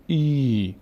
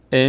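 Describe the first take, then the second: First: ای held long as "eee"; stretched ee. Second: ا as a brief "e"; short kasra. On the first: Teacher showing kasra stretched by ye, long ee on ای. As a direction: draw ای right out. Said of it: "کش میاد". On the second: Teacher showing kasra before it changes, short e on ا. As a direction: keep ا short. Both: Shown as a demonstration.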